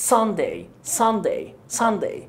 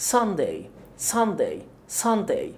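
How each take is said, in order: Both takes have the same delivery.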